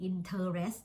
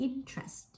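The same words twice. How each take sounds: First: Interest spelled out as in-ter-est, three full syllables. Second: INtrest, middle vowel dropped, stress up front; two-syllable interest. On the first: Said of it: "เราไม่ได้ออกเสียง interest". (ออกเสียง interest เต็มสามพยางค์ อิน-เทอ-เรสต์) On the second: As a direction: squeeze "interest" into IN-trest. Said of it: "แต่มันเป็น interest". (ออกเสียง interest สองพยางค์ อิน-เทรสต์ เน้นพยางค์แรก) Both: Shown as a demonstration.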